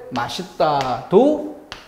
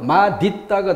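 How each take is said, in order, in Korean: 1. 가운데 자음은 ㅅ 소리예요. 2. 가운데 자음은 ㄷ 소리예요. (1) "허용한다" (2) "대표음 디귿으로 넘어가면"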